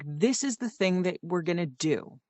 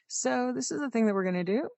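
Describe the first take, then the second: First: The voice falls at the end. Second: The voice rises at the end.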